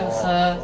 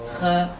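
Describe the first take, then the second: Both takes have the same delivery.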